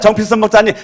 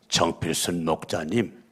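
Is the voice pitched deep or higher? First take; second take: higher; deep. First: It is said in a higher, brighter pitch. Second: It is said in a very deep, low pitch. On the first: It makes the listener feel good. The speaker calls it right. "그러면 기분이 좋아요" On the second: It gives the listener the creeps. The speaker calls it wrong. "너무 저음도 안 돼요. 저음도"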